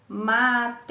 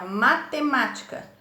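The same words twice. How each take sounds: First: MA - TE - MÁ - TI - CA, spaced beats; teacher sounding out MA-TE-MÁ-TI-CA; split into syllables. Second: Said in the usual way. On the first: Shown as a demonstration. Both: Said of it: "Assim que divide a palavra".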